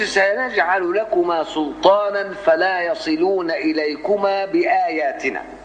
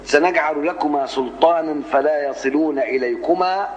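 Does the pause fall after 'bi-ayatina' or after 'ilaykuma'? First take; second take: after bi-ayatina; after ilaykuma. First: The phrase stops after the word bi-ayatina. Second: The phrase stops after the word ilaykuma. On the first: The signs protect them from being reached. "واقف في علامات كده" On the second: The signs are the means by which they prevail. "زي ما عملت انا"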